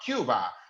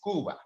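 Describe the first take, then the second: First: It is said with an English pronunciation. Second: It is said with a Spanish pronunciation.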